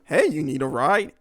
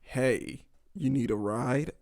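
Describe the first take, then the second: First: It is said in a warm, friendly way. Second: It is said in a cold, nonchalant way.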